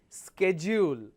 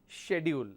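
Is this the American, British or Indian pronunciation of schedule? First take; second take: American; British. First: It is said the American way. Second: It is said the British way. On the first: "Americans pronounce this as schedule" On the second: "British pronounce this as schedule"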